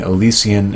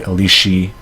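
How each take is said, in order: First: The middle consonant is a plain s sound. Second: The middle consonant is a rough sh sound. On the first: This is the capital's form. "instead of saying Elysian" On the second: This is the coastal sailors' form. "it's easier to say Elysi while you're at sea"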